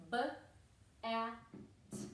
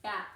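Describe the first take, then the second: First: "B-A-T" as three separate letter sounds; sounded out. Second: Said in the usual way. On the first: Shown as a demonstration. Teacher modelling sounds to write on the hand, "B-A-T" sounded out slowly. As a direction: say "B-A-T" as buh, a, t with gaps. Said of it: "should be saying the sounds". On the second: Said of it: "listen to me before you write it".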